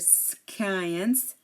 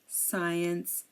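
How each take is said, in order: First: The c is pronounced as a k sound. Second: The c is silent after the s. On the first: The speaker calls it wrong. "we don't say skin or skint or science" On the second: The speaker calls it right. "we say scene, scent, science"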